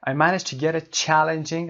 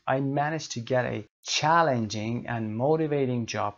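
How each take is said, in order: First: Challenging said higher and louder, slowly; slow teaching read, punching challenging; stress on challenging. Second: Said in the usual way. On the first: Shown as a demonstration. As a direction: lean on the first syllable of challenging. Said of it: "Challenging gets the stress". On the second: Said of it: "Underline the stress syllable".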